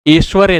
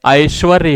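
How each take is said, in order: First: ऐश्वर्य opening on plain "e", "esh-varye"; wrong pronunciation. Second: ऐश्वर्य opening on an "a-i" glide; correct pronunciation. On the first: Teacher showing students the faulty ऐश्वर्य, mispronounced as eshvarya. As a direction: start ऐश्वर्य with "ay", no glide. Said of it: "नहीं होता है". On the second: Teacher giving students the right ऐश्वर्य, correctly pronounced. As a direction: start ऐश्वर्य with "aish". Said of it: "ऐश्वर्य होता है". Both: Shown as a demonstration.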